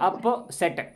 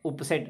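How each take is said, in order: First: The first vowel sounds like the 'u' in cup. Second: The first vowel sounds like the 'u' in put. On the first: The speaker calls it right. "ये उपसेट नहीं, अप अप सेट बोलेंगे" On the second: The speaker calls it wrong. "बहुत से लोग इसको उपसेट पढ़ते हैं"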